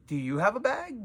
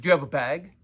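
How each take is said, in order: First: Higher-pitched, pointed echo of the question; question thrown back. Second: Said in the usual way. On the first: Retold or imitated. Shop owner throws customer's bag question back, pointedly. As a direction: turn the question back on the asker.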